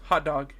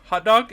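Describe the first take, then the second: First: "Hot dog." level and unraised, stress on HOT; answering inflection. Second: "Hot dog?" higher and louder, lifting at the end; questioning inflection. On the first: Lois answering Clark at Niagara Falls, matter-of-fact inflection. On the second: Clark asking Lois at Niagara Falls, questioning inflection. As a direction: ask HOT DOG as a raised, punchy question. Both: Retold or imitated. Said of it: "with different inflections".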